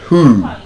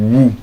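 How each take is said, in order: First: The word begins with an h sound. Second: The word begins with a w sound. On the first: The speaker calls it right. "The W there is silent" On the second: The speaker calls it wrong. "It's not woo"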